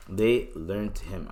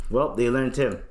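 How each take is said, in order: First: A slow, ominous echo; slow, low repeat. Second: Said in the usual way. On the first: Real, not acted. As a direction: let it sink in slowly.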